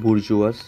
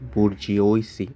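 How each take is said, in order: First: The word sounds like boor-zhwah, French-style. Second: Every written letter of the word is sounded out. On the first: "ultimately" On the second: "স্পেলিংটা মনে রাখার জন্য এভাবে যদি আমরা প্রোনাউন্সিয়েট করি"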